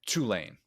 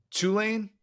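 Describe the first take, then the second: First: Tulane said with a flat falling end; Tulane, first way. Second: Tulane? rising sharply as a question; Tulane? said with a high questioning lift; Tulane, second way. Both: Shown as a demonstration. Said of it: "Will, my pronunciation".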